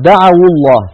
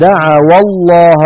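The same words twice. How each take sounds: First: Higher recitation, دعوا linked as da'awu to الله; short u on the waw of دعوا before الله; waw given damma. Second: Slow, higher recitation with دعوا misread as da'awa before الله; slip on the waw. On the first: Shown as a demonstration. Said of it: "حركت الواو بالضم". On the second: Real, not acted. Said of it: "آه، عفوا".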